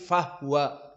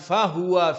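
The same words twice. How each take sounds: First: The h sound carries no vowel. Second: A vowel follows the h sound. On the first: The speaker calls it right. "bisukunil ha" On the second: The speaker calls it wrong. "bukan fahuwa"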